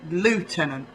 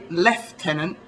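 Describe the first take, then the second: First: It is said with an American accent. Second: It is said with a British accent. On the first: "the Americans say lieutenant" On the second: "we say lieutenant"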